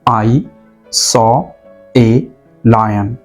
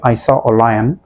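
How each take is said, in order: First: The article is a full, stressed 'ay'. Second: The article is a weak, reduced 'uh'. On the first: The speaker insists the claim is true. "आप जोर देकर कहेंगे" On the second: It is an ordinary, unemphatic statement. "हम लोग एक सरासरी बात करते हैं"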